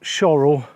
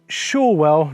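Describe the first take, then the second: First: The middle 'w' sound is dropped. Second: The middle 'w' sound is clearly pronounced. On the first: Some locals say it this way. The speaker calls it wrong. "not Shorrell" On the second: This is the traditional pronunciation. The speaker calls it right. "she told me it's Shorewell"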